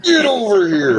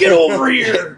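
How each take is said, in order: First: Slow, higher hammed-up villain cry; mock Scorpion call. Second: Slow, high growled game-villain yell; Scorpion shout. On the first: Buddy echoing the spear line as a slowed mock villain cry. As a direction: stretch it like the fighting-game line. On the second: Retold or imitated. Buddy quoting the game's spear grab in a slow game-villain yell. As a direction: drag the words out like a fighting-game villain. Mortal Kombat Scorpion quote.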